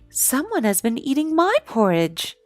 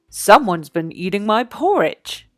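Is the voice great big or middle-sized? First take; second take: middle-sized; great big. First: It is said in a middle-sized voice. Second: It is said in a great big voice.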